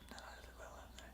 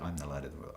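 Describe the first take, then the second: First: It is whispered. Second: It is spoken in a normal voice.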